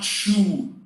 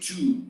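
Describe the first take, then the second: First: The word begins with a 'ch' sound. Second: The word begins with a clear 't' sound. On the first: The speaker calls it wrong. "It's not chew. Chew doesn't exist" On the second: The speaker calls it right. "we say two"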